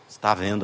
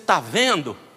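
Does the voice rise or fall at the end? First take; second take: fall; rise. First: The voice falls at the end like a statement. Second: The voice rises at the end like a question. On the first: It affirms that he is seeing. The speaker calls it right. "Você fala assim" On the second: It asks whether he is seeing. The speaker calls it wrong. "Como pergunta"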